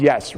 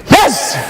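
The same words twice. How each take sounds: First: Said in the usual way. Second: High, explosive shout; short burst of a yell, pitched way up; loud yes. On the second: Shown as a demonstration. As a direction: yell it to fire up the room. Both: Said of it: "nice and loud".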